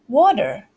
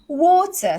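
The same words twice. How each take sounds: First: It has a soft T and an R sound. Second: It has a crisp T and no R sound. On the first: "their T is completely different and they have the R as well" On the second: "The British way, water, silent R"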